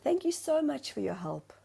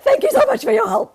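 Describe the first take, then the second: First: It sounds warm and sincerely grateful. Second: It sounds curt and sarcastic. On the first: The thanks are genuinely meant. The speaker calls it right. "he softened in that moment" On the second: The thanks hide irritation. The speaker calls it wrong. "do you hear how I'm saying it differently?"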